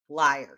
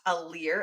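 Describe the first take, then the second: First: The word sounds like 'liar', with a 'lie' vowel. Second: The word sounds like 'leer', rhyming with 'ear'. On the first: The speaker calls it right. "you were correct in pronouncing it liar" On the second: The speaker calls it wrong. "it is not a leer as I had thought it was pronounced"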